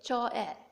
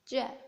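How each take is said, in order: First: The two vowels are said as separate sounds. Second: The two vowels are blended into one sound. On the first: The speaker calls it wrong. "it feels a little weird to say o-e" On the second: The speaker calls it right. "a more common pronunciation is je"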